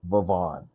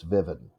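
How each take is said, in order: First: The stress is on the second syllable. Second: The stress is on the first syllable. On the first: "If the second syllable is stressed, it's Vivon" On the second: "If the first syllable is stressed, it's Vivian"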